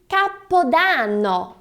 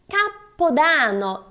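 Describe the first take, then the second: No difference in how they are said.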